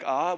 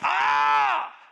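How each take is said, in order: First: It is said calmly and quietly. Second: It is screamed loudly.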